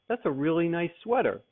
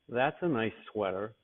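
First: It is said sincerely, as a real compliment. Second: It is said sarcastically, meaning the opposite.

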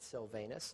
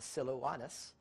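First: The name is said with a v sound. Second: The name is said with a w sound. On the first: The speaker calls it wrong. "as we would pronounce it, Silvanus, not the correct pronunciation" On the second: The speaker calls it right. "but it's actually Silouanus"

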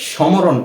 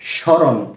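First: The m sound is pronounced. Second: The m sound is not pronounced. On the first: The speaker calls it wrong. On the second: The speaker calls it right.

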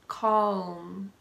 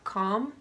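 First: It is said with a light L sound. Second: It is said with no L sound. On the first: "See how my tongue touches the roof of my mouth?" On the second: "like .com, a .com company or a website"

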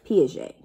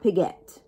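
First: The name is said differently from its spelling. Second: The name is read the way it is spelled. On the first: The speaker calls it right. "we pronounce it a little bit differently than we see it" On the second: The speaker calls it wrong. "Not Piaget"

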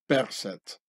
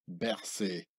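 First: The name is not given its French pronunciation. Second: The name is given its French pronunciation. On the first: The speaker calls it right. "in the original Pharaonic way of" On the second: The speaker calls it wrong. "not like the French camouflaged pronunciation"

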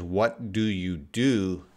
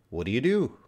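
First: It is said at a slower, careful pace. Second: It is said very quickly, at native speed.

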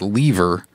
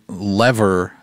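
First: It is said with a British pronunciation. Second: It is said with a non-British pronunciation.

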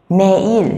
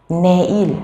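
No difference in how they are said.

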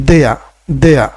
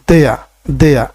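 The two takes are said the same way.

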